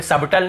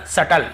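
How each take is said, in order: First: "सबटल" as sab-tal, audible b; B wrongly sounded. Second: "सटल" as sa-tal, no b; silent B. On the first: Teacher shows what not to read, "सबटल" with b. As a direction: close the lips on b in "सबटल". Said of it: "सबटल नहीं पढ़ रहे हैं". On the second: Teacher models it for students, "सटल" with silent b. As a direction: say "सटल" straight into the t. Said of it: "सबटल नहीं पढ़ रहे". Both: Shown as a demonstration.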